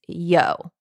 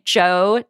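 First: The name begins with a Y sound. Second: The name begins with a J sound. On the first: The speaker calls it right. "but I think it's Yo" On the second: The speaker calls it wrong. "I want to say Joe Nesbo"

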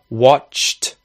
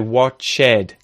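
First: The ending is a plain consonant with no vowel. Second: The ending adds an extra vowel syllable. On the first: The speaker calls it right. "instead of say watched" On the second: The speaker calls it wrong. "mispronounce ED endings"

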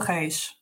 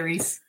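First: The name is said with Portuguese pronunciation. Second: The name is said with English pronunciation. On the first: "How do you pronounce it in Portuguese?" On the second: "I'm always talking in English anyway. So I say Reese"

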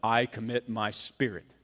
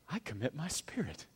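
First: It is said harshly and sternly. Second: It is said calmly, with quiet peace.

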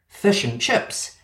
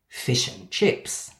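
First: Fish and chips both have a schwa vowel. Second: Fish and chips both have an i vowel. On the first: This is how New Zealanders and Scots say it. "For them, fish and chips has three schwas" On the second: This is how Australians say it. "For us, there is only one in the middle word"

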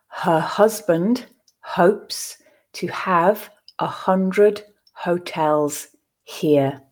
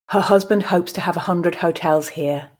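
First: The sentence is read slowly. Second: The sentence is read at a natural pace. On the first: "I will read the sentence first slowly for you to grasp the words" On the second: "I will then read it at a more natural pace"

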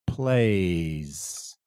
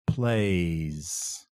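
The two takes are said the same way.

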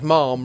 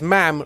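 First: The vowel sounds like the one in palm. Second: The vowel sounds like the one in lamb. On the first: The speaker calls it wrong. "not Ma'am rhymes with Palm" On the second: The speaker calls it right. "Ma'am rhymes with Lamb"

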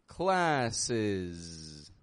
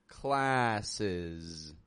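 Both takes have the same delivery.

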